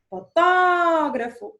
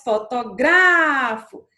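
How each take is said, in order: First: Fotógrafo with a loud, long-held TÓ; stress on TÓ. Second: Fotografo with a loud, long-held GRA; stress on GRA. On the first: Teacher showing a proparoxytone, fotógrafo stressed hard on TÓ. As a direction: stretch the second syllable of fotógrafo, foTÓÓgrafo. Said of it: "proparoxítona". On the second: Teacher contrasting the paroxytone, fotografo stressed hard on GRA. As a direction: stretch the third syllable of fotografo, fotoGRAAfo. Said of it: "é uma paroxítona". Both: Shown as a demonstration.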